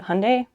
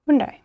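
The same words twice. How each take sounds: First: The name is said the American way. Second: The name is said the Korean way. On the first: "how does America say it?" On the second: "So that is the correct pronunciation"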